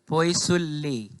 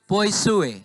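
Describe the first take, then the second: First: The double L is pronounced clearly. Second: The double L is left silent. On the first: The speaker calls it wrong. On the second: The speaker calls it right.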